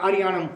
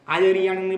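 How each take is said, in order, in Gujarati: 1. ઉતાવળે બોલાય છે, 'ya' અક્ષર દબાઈ જાય છે. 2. દરેક અક્ષર, 'ya' સહિત, સ્પષ્ટ બોલાય છે.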